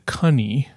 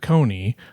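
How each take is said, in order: First: The first vowel rhymes with 'honey'. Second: The first vowel rhymes with 'bony'. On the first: This is the older pronunciation. "the previous pronunciation had been cunny, like honey or money" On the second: This is the later pronunciation. "the pronunciation was changed ... to Coney"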